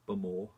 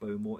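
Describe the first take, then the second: First: The first syllable sounds like 'bum'. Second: The first syllable does not sound like 'bum'. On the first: The speaker calls it right. "Bum. B U M O R. Bumore. Good way to pronounce it" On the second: The speaker calls it wrong. "It's not Bowmore"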